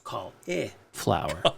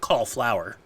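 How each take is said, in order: First: The middle i sound is clearly pronounced. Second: The middle i sound is dropped. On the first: The speaker calls it right. "There's an I in there. You have to pronounce it" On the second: The speaker calls it wrong. "Not cauliflower"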